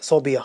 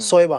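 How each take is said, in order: First: It is said as so-bi-ya. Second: It is said as so-e-ba. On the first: "कुछ लोग इसको सोबिया भी पढ़ते हैं" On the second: "सोएबा भी गलत है"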